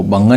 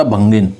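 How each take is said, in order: First: भंगन said bhan-gan with no i; wrong form. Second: भंगिन said bhan-gin with a clear i; correct form. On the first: Teacher naming the spelling error to students, bhangan. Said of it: "भंगिन होता है वो, भंगन नहीं होता". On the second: Teacher confirming the right word for students, bhangin. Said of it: "भंगिन होता है वो". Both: Shown as a demonstration.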